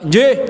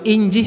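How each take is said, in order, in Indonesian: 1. Diucapkan dengan nada ketus dan tajam. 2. Diucapkan dengan nada lembut dan menyenangkan. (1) "Kalimatnya bagus, tapi intonasinya elek banget" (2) "Kalau nadanya bagus"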